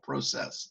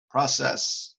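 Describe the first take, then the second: First: It is said with a Canadian accent. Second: It is said with an American accent.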